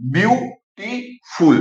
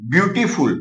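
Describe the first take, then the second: First: ब्यूटीफुल drawn out slowly, each syllable apart; teacher breaking ब्यूटीफुल into syllables. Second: Said in the usual way. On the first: Shown as a demonstration. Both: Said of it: "ये जो multi syllable है".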